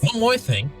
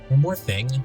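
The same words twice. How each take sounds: First: It is said in a put-on anime hero voice. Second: It is said in a normal reading voice.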